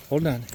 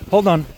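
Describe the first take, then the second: First: Said in the usual way. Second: Loud call. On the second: Real, not acted. Dogs suddenly pulling, calls out.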